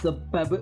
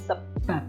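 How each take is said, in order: First: The final b is released with a burst. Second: The final sound is an unreleased p. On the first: The speaker calls it wrong. "bukan sebab" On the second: The speaker calls it right. "tapi sebab. Jadi berubah menjadi p"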